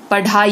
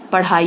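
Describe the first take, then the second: First: पढ़ाई with a hard "dh" stop; wrong consonant. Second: Said in the usual way. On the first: Shown as a demonstration. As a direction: say पढ़ाई without the flap. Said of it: "ये गलत है". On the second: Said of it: "ये सही है".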